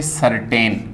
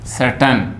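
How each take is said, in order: First: सर्टेन with a long टे in the second syllable; common mispronunciation. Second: सर्टन with a short, neutral ट; correct pronunciation. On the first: Teacher quotes how we say it, common mispronunciation. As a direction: stretch the ए of सर्टेन. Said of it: "लेकिन ये गलत है". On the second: Teacher shows students the right way, correct pronunciation. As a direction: reduce the second vowel of सर्टन, no टे. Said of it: "सही उच्चारण है इस तरह से". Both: Shown as a demonstration.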